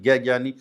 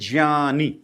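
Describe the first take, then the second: First: The word begins with a hard g sound. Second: The word begins with a nasal sound. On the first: The speaker calls it wrong. "वो गै ज्ञानी शब्द ही नहीं है" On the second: The speaker calls it right. "ज्ञानी नासिका से बोला जाता है"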